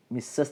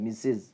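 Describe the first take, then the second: First: മിസ്സസ് said as "mi-sas", open a at the end; wrong example, മിസ്സസ് ending in -sas. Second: മിസ്സസ് said as "mi-siz", short i at the end; corrected model, മിസ്സസ് ending in -siz. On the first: (മിസ്സസ്, അവസാനം "സസ്") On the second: (മിസ്സസ്, "മിസ്സിസ്" എന്ന്) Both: Shown as a demonstration. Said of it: "മിസ്സസ് എന്നല്ല".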